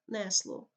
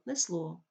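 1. Наголос стоїть там, де його ставлять місцеві говори. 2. Наголос стоїть там, де його ставить літературна мова. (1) "вплив діалектної системи наголошування" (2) "потрібно"

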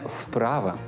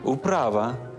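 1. Слово починається з твердого приголосного. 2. Слово починається з м'якого ковзного звука, схожого на у. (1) "не вправа" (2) "управа перед приголосним «п»"

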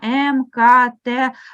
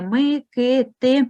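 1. Кожна літера вимовляється повною назвою з алфавіту. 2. До кожного приголосного додається голосний 'y'. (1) "а як в абеці" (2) "називають літери з призвуком и"

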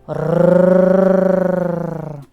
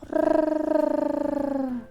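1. Гарчання звучить сердито і голосно. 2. Гарчання звучить сумно і тихо. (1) "Чи сердито?" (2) "Сумно"

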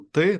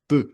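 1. Перший приголосний вимовляється м'яко. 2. Перший приголосний вимовляється твердо. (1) "ми кажемо «ти», так м'яко" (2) "вони так «ти»"

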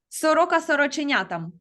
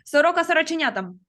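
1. Фраза промовляється швидким темпом. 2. Фраза промовляється дуже швидким темпом. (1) "А тепер швидше" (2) "А пробуємо ще швидше"

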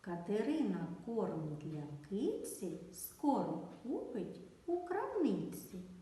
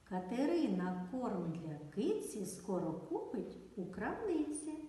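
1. Речення вимовляється повільно. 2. Речення вимовляється помірним темпом. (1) "Спочатку вимовляємо повільно" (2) "Давайте спробуємо трішечки швидше"

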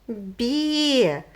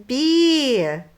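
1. Звук «б» м'який, пом'якшений. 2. Звук «б» м'який, пом'якшений.

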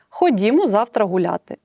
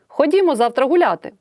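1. Вимовляється спокійно, без емоційного наголосу. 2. Вимовляється емоційно, з підвищеною інтонацією. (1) "Я можу сказати такою інтонацією, тоді в кінці речення буде крапка" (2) "Тоді буде знак оклику"

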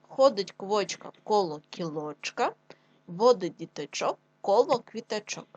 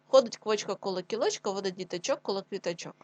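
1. Читають повільно, старанно. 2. Читають швидше.

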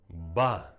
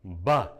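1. Склад вимовлено з помірною інтенсивністю. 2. Склад вимовлено з більшою інтенсивністю. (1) "наче викидаємо звук «ба»" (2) "Тепер збільшуємо інтенсивність"

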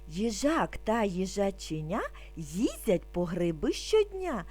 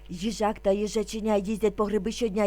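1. Вона вимовляється спокійно, повільним темпом. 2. Вона вимовляється дуже швидким темпом. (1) "спокійно, не спіша" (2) "дуже швидко"

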